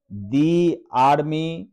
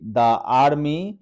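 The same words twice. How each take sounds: First: Slow दी with a long ee before army; "दी army" slowly, long ee; slow correct "thee". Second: द said short before army; wrong "thuh" demo. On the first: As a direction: stretch the दी, careful and clear. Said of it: "ये आपका पढ़ना सही होगा". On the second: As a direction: clip the vowel as the wrong way. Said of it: "ये पढ़ना गलत होगा". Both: Shown as a demonstration.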